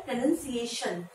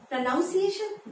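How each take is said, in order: First: "प्रोनाउंसिएशन" with a NUN second syllable; correct pronunciation. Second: "प्रोनाउंसिएशन" with a NOUN second syllable, pitched higher; common mispronunciation. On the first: Teacher correcting learners' first word, carefully pronounced with "nun". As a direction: say "प्रोनाउंसिएशन" as pruh-nun-see-AY-shun. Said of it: "इसको हम प्रोनाउंस करते हैं". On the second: Teacher showing learners the common error, mispronounced with "noun". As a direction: say "प्रोनाउंसिएशन" wrongly as pro-NOUN-see-ay-shun. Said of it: "जी नहीं, इसको हम प्रोनाउंस". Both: Shown as a demonstration.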